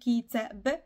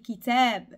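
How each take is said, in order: First: The vowel in the second syllable is short. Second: The vowel in the second syllable is long. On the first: The speaker calls it wrong. "On n'a pas dit kitab" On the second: The speaker calls it right. "on a dit kitab; un petit allongé"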